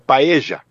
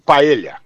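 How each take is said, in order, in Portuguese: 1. O duplo L não soa como lh. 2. O duplo L soa como lh em português. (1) "os argentinos dizem paella" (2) "Como estou falando e como o Gil explicou"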